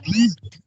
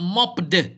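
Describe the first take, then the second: First: The ending is said as a T sound. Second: The ending is not said as a T sound. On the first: The speaker calls it right. "It's pronounced with a T sound" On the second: The speaker calls it wrong. "It's not"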